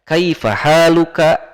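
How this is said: It is said in full Classical Arabic form. This is the pure, correct classical language. The speaker calls it right. "itu adalah bahasa Fusha"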